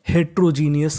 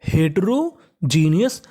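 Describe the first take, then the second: First: The word is said quickly with syllables squeezed together. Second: The word is said slowly with every syllable.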